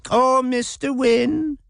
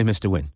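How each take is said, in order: First: Much higher, slow, silly mocking imitation of a simpering girl; imbecilic mock. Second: Said in the usual way.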